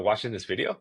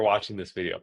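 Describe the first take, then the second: First: It is said as an unsure, questioning remark. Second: It is said as a confident, direct statement. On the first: The speaker seeks reassurance. The speaker calls it wrong. "it's just not as confident. And I sound a bit unsure of myself" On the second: The speaker assumes it is true. The speaker calls it right. "I'm assuming"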